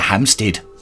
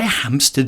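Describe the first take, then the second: First: The last syllable is a long, full 'steed'. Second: The last syllable is a short, reduced 'sted'.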